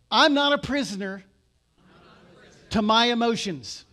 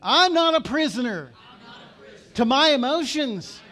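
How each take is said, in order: First: It is said in a plain, ordinary way. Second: It is said forcefully, with strong conviction. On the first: "Say this with me out loud" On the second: "let's say it like you mean it"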